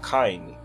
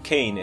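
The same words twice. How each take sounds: First: The vowel is said with a Cockney accent. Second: The vowel is said with a standard accent. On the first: This is how he himself says his name. The speaker calls it right. "é Caine" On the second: This is how others usually say his name. The speaker calls it wrong. "e não Caine"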